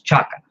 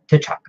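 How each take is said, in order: First: The name starts with a ch sound. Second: The name starts with a t sound. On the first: The speaker calls it right. "is Chaka" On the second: The speaker calls it wrong. "not T'Chaka"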